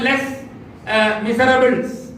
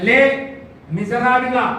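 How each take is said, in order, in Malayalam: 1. അവസാനത്തെ s ശബ്ദങ്ങൾ ഉച്ചരിക്കുന്നു. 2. അവസാനത്തെ s ശബ്ദങ്ങൾ നിശബ്ദമാണ്. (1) "ഇംഗ്ലീഷിൽ എഴുതുമ്പോൾ ... ലെസ് മിസറബിൾസ് എന്നാണ് എഴുതാറുള്ളത്" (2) "വായിക്കേണ്ടത് ലേ മിസറാബിള എന്നാണ് ഫ്രഞ്ച് ഭാഷയിൽ; ആ എസ് ഒക്കെ സൈലന്റ് ആണ്"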